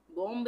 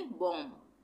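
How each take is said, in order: First: बॉम्ब with a spoken b after the M; wrong, B sounded. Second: बॉम्ब said as "bom", closing on M; silent B. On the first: Teacher showing what not to say, बॉम्ब with audible B. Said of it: "बॉम्ब नहीं बोलेंगे". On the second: Teacher answering how to read it, बॉम्ब with silent B. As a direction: drop the final b of बॉम्ब. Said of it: "हम इसको क्या पढ़ेंगे". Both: Shown as a demonstration.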